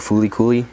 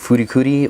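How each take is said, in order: First: The syllables are said with an L sound. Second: The syllables are said with an R-like sound. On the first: "or Fulikuli" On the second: "you can pronounce it Furikuri"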